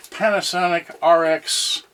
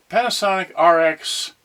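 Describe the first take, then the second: No difference in how they are said.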